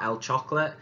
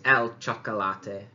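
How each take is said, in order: First: Chocolate is pronounced the English way. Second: Chocolate is pronounced the Spanish way. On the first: The speaker calls it wrong. "it's not el chocolate" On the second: The speaker calls it right. "a slight tweak in the pron pronunciation in Spanish"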